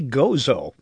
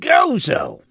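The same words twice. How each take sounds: First: The name is said in a plain, relaxed voice. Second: The name is said with a strained, effortful voice. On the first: This is the simpler way the speaker prefers. "Why can't they just say Gozo?" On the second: This is how the locals say it. "as if they're straining or something"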